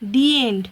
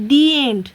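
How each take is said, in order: First: The word 'the' sounds like 'thee'. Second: The word 'the' sounds like 'thee'.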